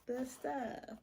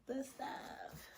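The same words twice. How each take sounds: First: Said in the usual way. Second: Breathy whisper, no voice. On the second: Shown as a demonstration. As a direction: whisper it to the camera. Repeating phrase, then whispered.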